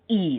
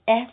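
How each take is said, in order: First: The letter is said with an 'ee' vowel. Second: The letter is said with an 'eh' vowel. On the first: The speaker calls it right. "that's the sound for e" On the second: The speaker calls it wrong. "They say eh"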